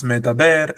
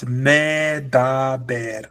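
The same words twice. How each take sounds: First: Said in the usual way. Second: "medaber" stretched out, long "me", syllable by syllable; wrong long-vowel version. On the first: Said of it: "it's medaber and not medaber". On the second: Shown as a demonstration. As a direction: drag each syllable of "medaber", especially a long "me". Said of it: "there's no long sound".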